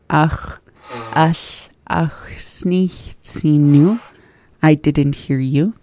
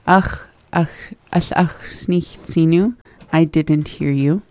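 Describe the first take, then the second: First: It is said slowly. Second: It is said at normal speed.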